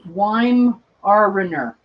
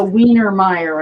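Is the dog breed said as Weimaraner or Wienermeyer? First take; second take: Weimaraner; Wienermeyer. First: The name sounds like 'why-mah-rah-ner'. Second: The name sounds like 'wiener-meyer'. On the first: The speaker calls it right. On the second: The speaker calls it wrong.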